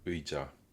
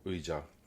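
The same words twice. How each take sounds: The two takes are said the same way.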